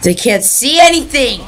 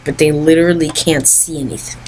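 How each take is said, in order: First: Higher, pushed, anything stressed; emphatic. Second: Said in the usual way. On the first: Real, not acted. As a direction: hammer the point home. Repeats complaint more forcefully.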